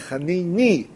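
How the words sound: The word ends with an 'ee' sound. "האשכנזים, הם לא אומרים חננו, אלא חניני"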